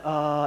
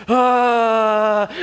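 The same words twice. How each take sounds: First: Easy, relaxed "ahh"; imitated gentle labor "ah"; calm "ah". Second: Loud, higher, long held "aaah"; intense "ah". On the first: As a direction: breathe out a mild, controlled "ah". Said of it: "instead of like". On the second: Retold or imitated. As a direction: imitate a straining labor cry. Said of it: "started to get a little more intense".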